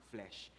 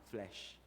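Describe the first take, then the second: The two takes are said the same way.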